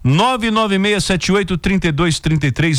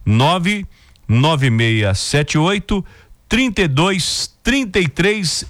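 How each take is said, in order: First: The number is said at normal speed. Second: The number is said very slowly.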